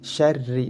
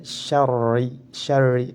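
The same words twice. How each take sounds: First: "Syarri" with a light, thin rolled r; "Syarri" with unrounded, thin ra. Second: "Syarri" with a heavy, thickened r; demonstrating wrong heavy rolled r in "Syarri"; thick ra, incorrect reading. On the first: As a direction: keep the r in "Syarri" light, tongue forward. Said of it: "harus dibaca tipis". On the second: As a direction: make the r in "Syarri" dark and heavy, as a mistake. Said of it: "tidak boleh". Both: Shown as a demonstration.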